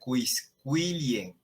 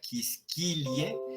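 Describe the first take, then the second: First: The qu is said as kw. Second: The qu is said as a plain k. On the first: The speaker calls it right. "sino que se diría quisquilie" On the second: The speaker calls it wrong. "No se diría quisquilie"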